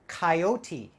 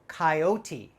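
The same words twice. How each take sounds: Both takes have the same delivery.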